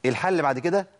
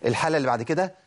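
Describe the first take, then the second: No difference in how they are said.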